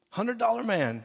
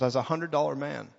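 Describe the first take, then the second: First: Playful higher repeat. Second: Said in the usual way. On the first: Acted.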